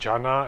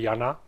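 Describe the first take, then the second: First: The name is pronounced the English way. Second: The name is pronounced the Czech way. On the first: The speaker calls it wrong. "not Jana as would be natural for English speakers" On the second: The speaker calls it right. "it's really Jana. That's the pronunciation in Czech"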